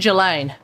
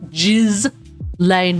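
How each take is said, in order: First: The first syllable does not sound like 'jizz'. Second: The first syllable sounds like 'jizz'. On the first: The speaker calls it right. "I say Ghislaine" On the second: The speaker calls it wrong. "I don't think that's how you pronounce her name"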